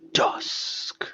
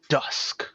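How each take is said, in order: First: It is said in a dramatic, theatrical way. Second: It is said in a plain, flat way.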